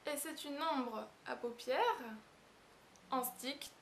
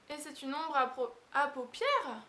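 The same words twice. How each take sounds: First: Slow, deliberate ombre à paupières; careful corrected take after the stumble; careful retake. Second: Tripping over paupières while laughing; botched take, giggling; laughing stumble. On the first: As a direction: say paupières slowly and cleanly this time. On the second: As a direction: fumble ombre à paupières through a laugh. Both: Real, not acted. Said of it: "Oh, j'ai pas y arriver".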